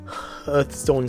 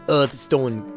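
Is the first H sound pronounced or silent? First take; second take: pronounced; silent. First: The word starts with a clear H sound. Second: The word starts without an H sound. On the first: The speaker calls it right. "Hearthstone sounds cooler" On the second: The speaker calls it wrong. "quite silly to pronounce it the Earthstone"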